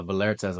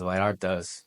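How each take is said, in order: First: Said in the usual way. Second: Vallartas said lightly with a Spanish accent; a passing Spanish accent on Vallartas. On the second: Shown as a demonstration. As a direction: give Vallartas a quick touch of Spanish accent. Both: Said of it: "that's my Spanish accent there".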